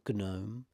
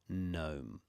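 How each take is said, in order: First: The G at the start is sounded. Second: The G at the start is silent. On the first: The speaker calls it wrong. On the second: The speaker calls it right.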